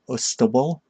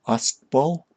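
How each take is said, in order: First: Ustbal as "OOS-tuh-bul", rising in question; tentative pronunciation. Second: Ustbal as "AHST-bawl", rising in question; tentative pronunciation. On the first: Streamer guessing at an odd name, Ustbal as questioning "OOS-tuh-bul". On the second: Streamer guessing at an odd name, Ustbal as questioning "ahst-bawl". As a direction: try Ustbal in two syllables, "ahst-bawl?". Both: Real, not acted. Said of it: "How am I supposed to pronounce that".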